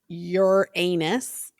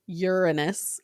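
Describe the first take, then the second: First: It sounds like the words 'your anus'. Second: It starts with a sound like 'urine'. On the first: "you say your anus" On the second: "you're saying urine"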